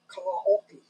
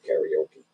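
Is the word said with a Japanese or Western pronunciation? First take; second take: Japanese; Western. First: It is said the Japanese way. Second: It is said the Western way.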